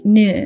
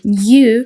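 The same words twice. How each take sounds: First: "new" as "noo", no J glide; American pronunciation. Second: "new" with a J glide, like "nyoo"; British pronunciation. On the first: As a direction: say "new" American-style, straight from N to oo. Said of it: "and in American, they say new". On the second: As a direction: say "new" British-style, a y-sound after the N. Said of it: "adding J in British words". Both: Shown as a demonstration.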